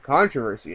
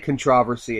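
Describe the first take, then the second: First: The word is said in an American way. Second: The word is said in a non-American way. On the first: "that's the American way of saying it" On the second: "I can't say controversy. It just doesn't sound right to me"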